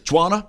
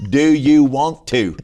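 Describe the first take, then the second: First: "Juana?" higher, do you want to squashed into one word; high, louder "Juana?" run together; run-together Southern slur. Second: "Do you want to" loud and slow, word by word; loud, over-separated "Do you want to"; spelled-out translation. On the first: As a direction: ask "Juana?" quickly as one slurred word. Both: Acted. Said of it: "you need to translate".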